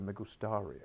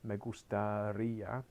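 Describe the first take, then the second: First: The stress falls away from the 'ri' syllable. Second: The stress falls on the 'ri' syllable. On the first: The speaker calls it wrong. "Everyone tries to go" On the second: The speaker calls it right. "Can you say it with the accent on there"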